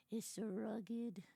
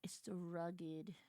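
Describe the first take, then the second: First: Said in the usual way. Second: Slow whispered gush. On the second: Real, not acted. Streamer swooning at the rugged hero, slow whisper. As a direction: hush it out, slow and dreamy.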